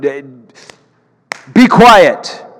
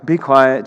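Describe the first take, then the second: First: It is said sternly, with commanding force. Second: It is said mildly, without force. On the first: The speaker calls it right. "With authority in his voice" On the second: The speaker calls it wrong. "sometimes we read through this and we're like"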